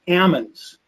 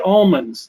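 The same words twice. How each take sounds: First: The L sound in the word is silent. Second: The L sound in the word is pronounced. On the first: This is how local growers say it. "they say almonds ... shake the L out of it" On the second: This is the usual way people say it. "They don't say almonds"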